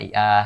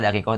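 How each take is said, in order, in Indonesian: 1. Konsonan tengahnya hamzah. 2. Konsonan tengahnya bunyi K. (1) "Dibilangnya dai'ah gitu" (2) "misalnya dakikoh"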